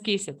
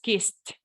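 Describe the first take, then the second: First: The ending is said as a separate ED syllable. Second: The ending is said as a short T sound. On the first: The speaker calls it wrong. "No es kissed" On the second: The speaker calls it right. "es kissed"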